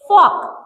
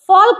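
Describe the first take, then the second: First: The L sound is left out of the word. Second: The L sound is pronounced in the word. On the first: The speaker calls it right. "एल को पढ़ेंगे ही नहीं" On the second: The speaker calls it wrong. "फॉल्क नहीं"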